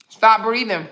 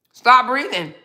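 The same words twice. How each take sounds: First: Said in the usual way. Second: A sharper repeat of Stop breathing with Stop punched; firmer command. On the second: Shown as a demonstration. Repeating the order to a commenter, a bit sharper. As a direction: Stop hit a bit higher and harder, breathing trailing off. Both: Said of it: "Oh, you can't stop breathing?".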